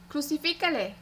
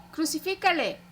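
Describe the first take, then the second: First: A higher, urgent call; first call of a chanting mob; crowd cry. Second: Higher still, pressing harder; the mob's chant growing in force; building crowd cry. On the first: The mob urges Pilate to crucify, higher cry. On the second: The mob insists to Pilate, higher, harder cry. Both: A narrator's reading. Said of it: "continuaban gritando".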